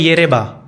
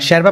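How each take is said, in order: First: The word begins with a 'y' sound. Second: The word begins with a 'sh' sound. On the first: This follows the written English spelling. "English में येरेबा लिखते हैं" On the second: This is how local people say it. "शर्बा प्रोनाउंस करते हैं"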